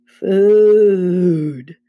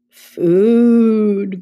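First: Long, loud moan of "food". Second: Long, loud, slightly raised moan; louder moaning. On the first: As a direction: moan the word out slowly. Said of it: "Then Grover moaned". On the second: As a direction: moan the word out more insistently. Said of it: "Grover moaned a little louder". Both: A narrator's reading.

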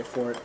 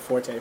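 First: Fort said as one syllable, like a castle; right pronunciation. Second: Forte said as for-tay, two syllables; wrong pronunciation. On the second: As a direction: say Forte like the music word, for-TAY. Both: Shown as a demonstration. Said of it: "Not Forte, fort".

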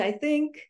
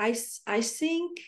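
First: "I think" with a clear TH; "think" with the tongue between the teeth; correct TH. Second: "I, I think" said as "I sink", with an S; a slow, light imitation of her son's "think"; child's S for TH. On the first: Shown as a demonstration. Mother giving the correct form her son should say: "I think" with TH. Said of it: "em vez de". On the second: Mother imitating her little son's English: slow, light "I sink". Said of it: "ele fala".

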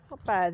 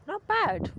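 First: Said in the usual way. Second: High, drawn-out "not bad" of surprise; surprised delight at a berry; pleasantly surprised. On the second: Real, not acted. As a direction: squeak "bad" up high as the taste lands. Tasting a wild blackberry.

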